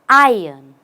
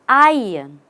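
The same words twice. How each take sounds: Both takes have the same delivery.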